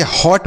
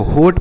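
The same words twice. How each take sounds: First: "हॉट" with an open aw vowel. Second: "होट" with a round oh vowel; closed o in होट. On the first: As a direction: say "हॉट" as hawt, not hote. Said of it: "इसे हॉट पढ़ेंगे". ("हॉट" खुले ऑ स्वर से) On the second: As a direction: mispronounce it "होट", like hote. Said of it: "ना तो होट पढ़ेंगे". ("होट" बंद ओ स्वर से) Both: Shown as a demonstration.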